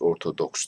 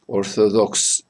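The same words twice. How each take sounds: First: The middle consonant is a clear D sound. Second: The middle consonant is a lisped TH-like sound. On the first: This is how Turkish speakers say it. "Orto D'yi de biz mesela çok net söylüyoruz" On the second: This is how it sounds in Arabic and English. "böyle peltek Z'ye benzeyen bir ses çıkarıyor"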